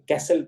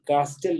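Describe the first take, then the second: First: No t sound is heard in the middle. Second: A t sound is heard in the middle. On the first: The speaker calls it right. "टी words में अक्सर silent होते हैं" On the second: The speaker calls it wrong. "कास्टल नहीं पढ़ा जाएगा"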